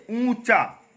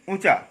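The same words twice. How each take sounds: First: ऊंचा with a long oo, higher; correct pronunciation. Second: ऊंचा with a short, quick u; wrong pronunciation. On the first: Teacher correcting the slip, correct pronunciation. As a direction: draw out the first vowel of ऊंचा. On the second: Teacher showing the slip, wrong pronunciation. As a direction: clip the first vowel of ऊंचा. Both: Shown as a demonstration. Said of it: "ऊंचा नहीं है".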